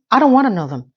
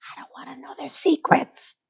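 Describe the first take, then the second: First: Said in the usual way. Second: Breathy secretive whisper, higher. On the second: Retold or imitated. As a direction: drop to a hush on the secrets. Whispered echo of previous line.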